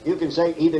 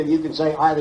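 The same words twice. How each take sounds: First: "either" said as EE-ther; "either" with ee, the first way. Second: "either" said as EYE-ther; "either" with eye, the other way. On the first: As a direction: say "either" with a long ee. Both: Shown as a demonstration. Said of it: "I don't care how it's pronounced".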